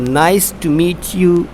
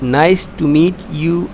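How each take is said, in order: Both takes have the same delivery.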